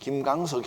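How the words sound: The name is said with Korean pronunciation. "우리나라 발음으로 부르는 게 제일 맞죠"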